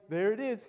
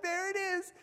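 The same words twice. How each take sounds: First: Said in the usual way. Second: Put-on eager kid. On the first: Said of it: "I'm like". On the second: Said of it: "and I'm like".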